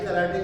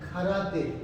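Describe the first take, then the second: First: The word starts with a plain k sound. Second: The word starts with a breathy kh sound. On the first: This is how people commonly say it. The speaker calls it wrong. "हम कराटे कराटे कहते हैं, ये कराटे नहीं है" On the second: This is the original Japanese word. The speaker calls it right. "असल में जापानी जुबान का लफ्ज़ है खराते"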